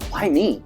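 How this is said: It sounds amazed and grateful. The speaker feels privileged to take part. "your tone starts to change"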